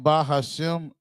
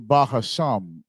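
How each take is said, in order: First: The last syllable has an 'eh' vowel, shem. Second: The last syllable has an 'ah' vowel, sham. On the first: This is the usual spoken form. "The way we're saying Ba Hashem, it sounds like we're putting the E in the the Shem" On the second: This follows how the word is spelled. "it's really Bahasham"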